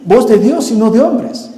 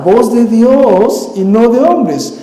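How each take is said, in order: First: "voz de Dios y no de hombres" ending on a sarcastic rise; mocking echo. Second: "voz de Dios y no de hombres" drawn out slowly, falling heavy on "hombres"; weighty slow fall on "hombres"; slow solemn. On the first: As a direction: toss off "voz de Dios y no de hombres" as ironic mockery. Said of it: "Ah, sí". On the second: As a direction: stretch out "voz de Dios y no de hombres" like a grave verdict. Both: Shown as a demonstration.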